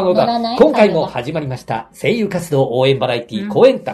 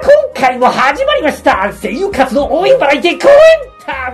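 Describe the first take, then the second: First: It is said in a flat, plain way. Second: It is said with very high energy. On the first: The style is easy for AI to copy. "これをやったら多分AI でも真似されちゃう" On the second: The style is hard for AI to copy. "本当ハイテンション"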